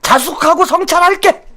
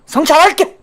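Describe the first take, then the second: First: Mock reflection. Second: Mock sneer. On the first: Mock grudging apology. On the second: Repeated with rising sneer.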